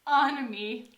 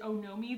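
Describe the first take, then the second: First: The middle vowel sounds like 'ah'. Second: The middle vowel sounds like 'oh'. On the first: The speaker calls it right. "but Onami, fine" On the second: The speaker calls it wrong. "I pronounced it Onomi the entire time"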